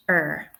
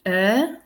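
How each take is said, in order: First: Er with a heavily pronounced Irish R; Irish er, R fully sounded; Irish accent. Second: Er drawn out with no R, RP style; received pronunciation accent. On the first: Teacher contrasts Irish with RP, Irish accent. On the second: Teacher contrasts RP with Irish, R-less RP accent. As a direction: RP er, R left silent. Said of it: "R P". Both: Shown as a demonstration.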